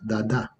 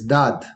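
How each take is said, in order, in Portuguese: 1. Ambas as vogais são claramente pronunciadas. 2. A vogal final é muda. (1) "como um bebê que habla" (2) "a segunda A é muda"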